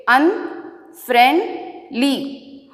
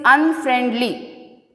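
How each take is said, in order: First: "Unfriendly" drawn out as un, friend, ly; long pauses between the syllables of "Unfriendly". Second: Said in the usual way. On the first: Shown as a demonstration. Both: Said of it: "Now I am splitting the words".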